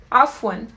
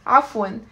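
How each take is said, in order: Both takes have the same delivery.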